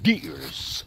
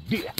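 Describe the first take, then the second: First: "deers" ending in a clear S; added plural S. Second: Said in the usual way. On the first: Shown as a demonstration. Explaining his grandmother's grammar, slow "deers" with an added S. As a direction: slowly show "deers" with the S on the end. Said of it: "She put the S on the end". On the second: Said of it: "No singular or plural".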